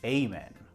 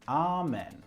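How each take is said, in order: First: It is said with an American pronunciation. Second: It is said with a British pronunciation. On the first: "If I'm in church across the pond, I would say" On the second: "If I'm in church in England, I will say"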